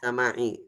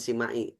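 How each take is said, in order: First: The first vowel is an open 'a'. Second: The first vowel is a close 'i'. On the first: The speaker calls it right. "sama'i, bukan sima'i" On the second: The speaker calls it wrong. "bukan sima'i"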